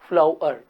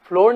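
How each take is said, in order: First: The word sounds like flower. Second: The word sounds like floor. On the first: The speaker calls it right. "ऐसा इसका pronunciation होते फ्लावर" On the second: The speaker calls it wrong. "इसको अपन फ्लोर नहीं बोलते"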